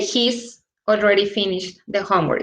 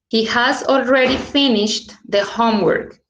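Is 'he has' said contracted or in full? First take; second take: contracted; full. First: The words 'he has' are contracted to 'he's'. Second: The words 'he has' are said in full.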